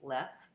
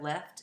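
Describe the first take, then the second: First: The final t sound is dropped. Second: The final t sound is kept. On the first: "consonant cluster reductions" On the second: "Instead of"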